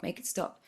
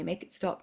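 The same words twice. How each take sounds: First: Whispered plea. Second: Said in the usual way. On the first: Retold or imitated. Praying to God to end suffering, fading whisper. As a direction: make it stop, breathed in a fading whisper. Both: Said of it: "every day I would pray".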